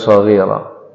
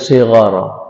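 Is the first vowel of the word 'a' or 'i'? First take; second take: a; i. First: The first vowel is a, the second is i. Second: The first vowel is i, the second is a. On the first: The speaker calls it wrong. "bukan shaghira" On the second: The speaker calls it right. "pastikan ujungnya sighara"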